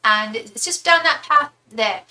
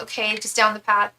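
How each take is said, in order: First: Put-on British accent, giving directions; British accent with a slowed, helpful delivery; British impression. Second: Said in the usual way. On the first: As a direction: imitate a helpful British lady. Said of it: "that British impression". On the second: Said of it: "And I'm like".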